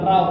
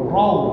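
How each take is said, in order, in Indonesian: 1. Vokal setelah R terbuka, seperti 'a'. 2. Vokal setelah R membulat, seperti 'o'. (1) "bukan raw kan" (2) "Raw ya kan"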